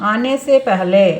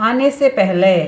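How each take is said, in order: Both takes have the same delivery.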